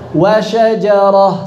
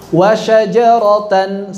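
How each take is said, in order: First: The word ends with an h sound. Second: The word ends with the syllable tan. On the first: The word is read at a stop. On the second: The word is read in running recitation.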